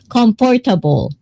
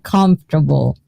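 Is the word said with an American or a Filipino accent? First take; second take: Filipino; American. First: It is said with a Filipino accent. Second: It is said with an American accent. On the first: "I always say comfortable" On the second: "American says it's like comfortable"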